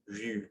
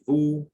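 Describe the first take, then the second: First: The vowel is a front rounded u sound. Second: The vowel is an unrounded back oo sound. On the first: The speaker calls it right. "we say vu" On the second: The speaker calls it wrong. "we don't say vous"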